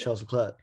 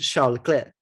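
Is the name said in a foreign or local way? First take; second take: local; foreign. First: The name is said the local, anglicised way. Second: The name is said the way other places say it. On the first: This is how it is said here. "but here we just say" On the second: This is how it is said in some other places. "in some places is Charles Leclerc"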